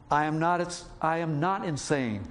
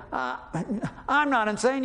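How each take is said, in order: First: Said in the usual way. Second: Angry retort. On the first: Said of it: "He says". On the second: Retold or imitated. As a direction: fire back like you're insulted. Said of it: "No, he doesn't say that".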